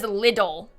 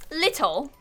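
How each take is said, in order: First: Lidl, middle consonant voiced as D; little with D. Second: Little with a crisp British T; little, T clearly released, pitched up. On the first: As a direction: say Lidl with a D sound, not a T. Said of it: "She says Lidl with a D". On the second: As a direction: sound out the T in little. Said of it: "I don't know if I". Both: Shown as a demonstration.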